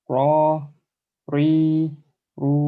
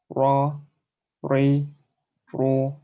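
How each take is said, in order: No difference in how they are said.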